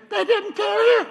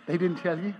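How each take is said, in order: First: High, loud incredulous doctor; doctor surprised the husband wasn't told. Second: Said in the usual way. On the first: Retold or imitated. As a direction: say it amazed nobody told him. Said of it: "And he said".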